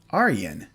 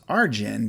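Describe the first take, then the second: First: The name is said the Dutch way. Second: The name is read the English way. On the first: The speaker calls it right. "this is Dutch. ... you pronounce it Arjen" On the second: The speaker calls it wrong. "I thought the first name was Arjen"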